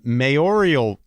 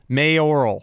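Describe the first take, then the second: First: It has an extra 'ee' sound, four syllables. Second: It is said as three syllables, may-or-al. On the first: The speaker calls it wrong. "No, you didn't. There's no I" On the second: The speaker calls it right. "That sounded right"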